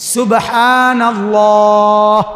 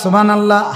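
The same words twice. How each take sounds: First: It is said with a full final h sound. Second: It is said quickly with the final h dropped. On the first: The speaker calls it right. "তো হা এটা উচ্চারণ হবে মোটা।" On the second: The speaker calls it wrong. "হা কই?"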